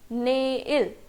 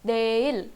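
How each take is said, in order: First: The word begins with an n sound. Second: The word begins with a d sound. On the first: The speaker calls it wrong. "ये हमने रोमनाइजेशन देखा था" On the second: The speaker calls it right. "इसका प्रोनाउंसिएशन क्या है ... द वाला साउंड आएगा"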